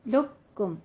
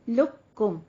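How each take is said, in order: The two takes are said the same way.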